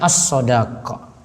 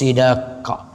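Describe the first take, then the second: First: Both the first and second vowels are a. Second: The first vowel is i, the second a. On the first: "Sodnya di fathah, dalnya juga" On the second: "boleh juga sodnya di kasrah"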